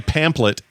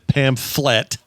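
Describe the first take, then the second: First: The middle consonant sounds like a P. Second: The middle consonant sounds like an F. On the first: "but you say pamphlet" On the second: "here I always was taught it's pamphlet"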